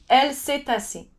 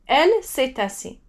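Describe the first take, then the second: The two takes are said the same way.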